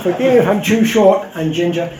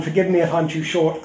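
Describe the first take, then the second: First: Louder, laughing retake of the apology; laughing redo. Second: Said in the usual way. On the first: Shown as a demonstration. Speaker repeats his apology to the audience, laughing. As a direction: say it again through laughter. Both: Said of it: "I'll say it again".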